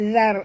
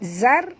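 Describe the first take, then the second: First: It starts with the tongue tip flicked out. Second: It starts with a plain z sound. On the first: The speaker calls it right. "sentil lidah" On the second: The speaker calls it wrong. "bukan zar"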